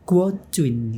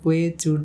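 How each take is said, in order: First: It is said with a melodic, tonal pitch. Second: It is said flat, without a tonal melody. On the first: This is how it is read in Mandarin. The speaker calls it right. "Itu pakai lagu gitu mas" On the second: This is how it is read in the local Indonesian dialect. The speaker calls it wrong. "Kalau kita kan plain aja kan"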